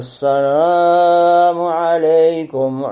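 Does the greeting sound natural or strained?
strained. The greeting sounds strained and affected. The speaker calls it wrong. "как некоторые"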